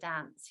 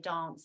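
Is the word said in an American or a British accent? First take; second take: American; British. First: The word is said in an American accent. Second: The word is said in a British accent. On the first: This is how the producers wanted it sung. "more of an American accent" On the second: This is how the producers did not want it sung. "Don't don't say dance"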